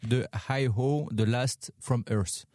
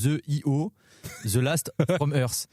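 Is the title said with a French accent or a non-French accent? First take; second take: non-French; French. First: The title is said without a French accent. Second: The title is said with a French accent.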